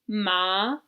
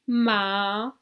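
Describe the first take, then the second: First: The pitch rises upward. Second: The pitch dips down and then rises. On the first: It means numb. "The second tone in Chinese goes up" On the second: It means horse. "The third type of tone goes down and then up"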